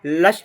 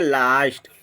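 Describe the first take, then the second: First: The vowel is a short 'uh' sound. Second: The vowel is a long 'ah' sound. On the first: The speaker calls it wrong. "लस्ट नहीं बोल के" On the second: The speaker calls it right. "इसको बोलेंगे लास्ट"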